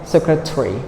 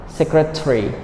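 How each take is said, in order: The two takes are said the same way.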